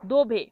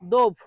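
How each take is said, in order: First: The word ends with a clear final vowel. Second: The word ends on the consonant, no final vowel. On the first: The speaker calls it right. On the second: The speaker calls it wrong.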